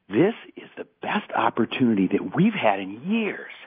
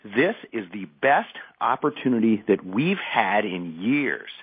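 First: It mixes happy and angry energy. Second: It is said with a touch of anger.

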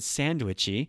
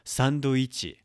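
First: It sounds like English sandwich with an added vowel. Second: It is said with Japanese syllables, san-do-i-chi. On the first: The speaker calls it wrong. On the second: The speaker calls it right.

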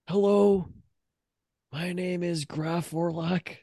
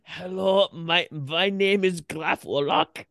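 First: It is said in an English accent. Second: It is said in a German accent.

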